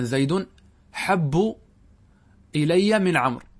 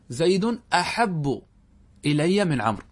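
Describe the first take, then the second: First: حب starting straight on the h, set off by pauses; hamza dropped. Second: Slow أحب with its initial hamza; full hamza form. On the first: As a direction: say حب without an opening hamza. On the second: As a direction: say أحب opening on a short a before the h. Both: Shown as a demonstration. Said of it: "حذفت الهمزة".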